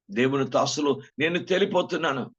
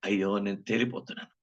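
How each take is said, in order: First: Higher, louder cry of realization; rising alarm. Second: Said in the usual way. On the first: Retold or imitated. Preacher voicing a sinner who finds himself too light, alarmed cry. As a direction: let the alarm break out. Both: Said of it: "అర్థమవుతుంది".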